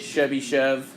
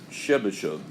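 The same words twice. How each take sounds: First: The name is said in an anglicized way. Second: The name is said in a Russian way. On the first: The speaker calls it wrong. "you don't say it Chebyshev" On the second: The speaker calls it right. "You would say it more Chebyshev"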